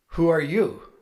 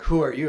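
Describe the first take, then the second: First: "Who are you" asked with a puzzled fall, stress on are; genuinely baffled, leaning on "are". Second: "Who are you" punched loud on "Who"; wrong version. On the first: Ronnie puzzling over who the caller is. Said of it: "It was like". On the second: What Ronnie's question did not sound like. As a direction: hit "Who" hard, accusing. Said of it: "it wasn't like". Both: Retold or imitated.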